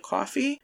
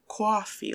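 First: Said in the usual way. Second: Put-on "coffee" drawn out slowly as "cwaw-fee", strong American accent. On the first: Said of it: "like, coffee". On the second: Imitating mom's picked-up American accent, "coffee" said very strongly. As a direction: lean hard on the American "aw" in "coffee". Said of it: "like, very strongly".

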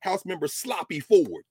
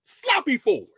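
First: Said in the usual way. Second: Name spat out higher and louder in scorn; mocking repeat. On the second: Lecturer mocking the segregationist legislator's name, scornful. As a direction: sneer the name, pitched up and loud.

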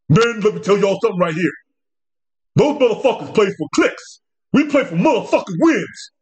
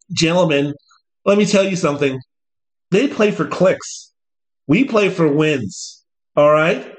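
First: Mock thuggish coach. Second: Slow, measured coach speech; a hint of a stern coach; lightly voiced coach. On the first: Coach trying to sound thuggish to his players, mock tough talk. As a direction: ham up a tough-guy locker room speech. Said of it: "try to sound more thuggish, urban". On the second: Coach addressing his players, slow stern speech. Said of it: "I don't expect Dan Lanning to go out there and say".

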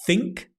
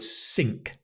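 First: "think" said slowly and separately with a TH sound; clear TH in think. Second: "sink" said slowly and separately with an S sound; clear S in sink. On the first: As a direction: set "think" apart, tongue between the teeth for the first sound. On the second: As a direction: set "sink" apart, opening on a clean s. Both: Shown as a demonstration. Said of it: "playing on two words".

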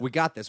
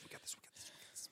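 First: Louder, brisk self-encouragement; rally the team; confident pep talk. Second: Fading to a tiny whisper; whispered pep talk. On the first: Host cheering on cohost about remaining time, confident. Chanting reassurance, fading to whisper. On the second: Host reassuring cohost about remaining time, whispered. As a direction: whisper it like a mantra. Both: Pretend.

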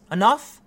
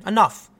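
First: Enough? rising like a challenge; Enough? asked with a rising end; questioning enough. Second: Enough said firmly with a falling end; flat, final Enough. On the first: To the audience, a rising, challenging Enough?. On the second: To the audience, fed up, a firm falling Enough. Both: Shown as a demonstration.

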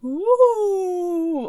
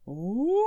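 First: High drawn-out ghostly ooh; ghost moan. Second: Deeper, scarier ghostly ooh; lower ghost moan. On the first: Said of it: "Oh, that's terrible". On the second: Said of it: "Yours is scarier than mine". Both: Pretend.

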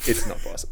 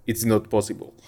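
First: Breathed almost without voice, a bad South African accent; mouthed imitation. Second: A deliberately bad South African accent, dry and clipped. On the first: Podcaster miming umpire mouthing the words, near-voiceless South African accent. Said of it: "just to kinda go". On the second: Podcaster imitating umpire Murray Erasmus, bad South African accent. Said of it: "such a bad South African accent".

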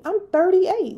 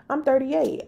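First: "I'm thirty-eight" higher and louder, punched; emphatic repeat. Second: Said in the usual way. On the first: Real, not acted. Insisting to viewers on her age, higher emphatic. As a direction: hammer the point home.

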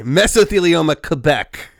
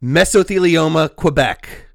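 First: "Quebec" said kuh-BECK, without the w; corrected pronunciation. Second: "Quebec" said kwuh-BECK after "Mesothelioma"; American mispronunciation. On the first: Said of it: "Quebec, thank you". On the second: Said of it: "Oh, God, [name]". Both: Real, not acted.

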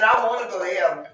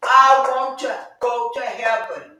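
First: Rushed, tossed-off statement; quick aside. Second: Slow and weighty, leaning on I; emphatic testimony. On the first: Preacher telling the church quickly, fast and offhand. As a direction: say it fast in passing. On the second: Preacher insisting to the church, slow and weighty. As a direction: give "I want to go to heaven" slowly, stress on I. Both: Real, not acted.

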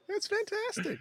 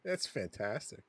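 First: Sudden high-pitched excited squeal; squealed delight. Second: Said in the usual way. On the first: Real, not acted. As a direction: shriek it with glee. Repeats praise, second take squealed.

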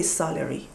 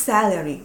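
First: 'salary' as SAH-lery, open back 'a', lower; non-English salary. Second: 'salary' as SAL-ery, front 'a' as in cat; English salary. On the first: Showing what English speakers don't say, SAH-lery. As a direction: say 'salary' with a long Farsi ah. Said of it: "You don't say salary". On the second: Showing what English speakers say, SAL-ery. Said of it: "you say salary". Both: Shown as a demonstration.

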